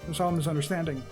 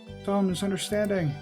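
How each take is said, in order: First: It is said in a regular, natural voice. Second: It is said in a put-on character voice.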